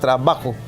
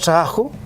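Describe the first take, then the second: First: The b is fully pronounced with both lips. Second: The b is dropped, leaving a small gap. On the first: This is the careful, written form. "trabajo es con B larga" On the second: This is the informal, less standard form. "como un apóstrofe"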